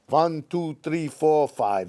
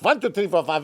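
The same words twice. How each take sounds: First: The numbers are counted at a slower pace. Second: The numbers are counted very quickly.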